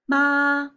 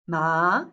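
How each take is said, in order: First: It is said with the first basic tone. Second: It is said with the second basic tone.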